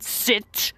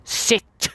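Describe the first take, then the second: First: It is said in a changed, put-on voice. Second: It is said in a changed, put-on voice.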